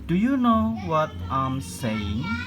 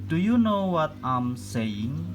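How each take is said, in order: Both takes have the same delivery.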